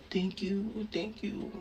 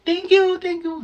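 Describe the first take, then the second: First: "Thank you" murmured quietly, half asleep; faint sleepy thank-yous; soft groggy thanks. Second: Noisy thanks. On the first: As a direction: whisper your thanks drowsily. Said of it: "ako daw, thank you lang ng thank you". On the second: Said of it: "Pero maingay". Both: Retold or imitated.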